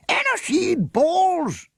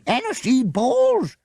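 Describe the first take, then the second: First: Slow, booming roar, much higher and louder; thundered. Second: Repeated exclamation. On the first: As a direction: thunder it out in outrage. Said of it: "the leader of the hunt thundered". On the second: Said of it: "the huntsman repeated". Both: A narrator's reading.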